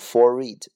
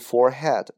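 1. 中间的 h 不发音。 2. 中间的 h 发音。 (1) "读forehead，h 不发音" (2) "它不读forehead"

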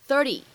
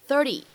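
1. 这个t发成快速、轻柔的闪音。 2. 这个t发成快速、轻柔的闪音。

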